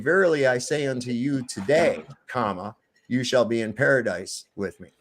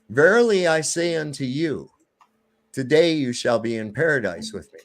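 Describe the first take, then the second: First: The pause comes after the word today. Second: The pause comes before the word today.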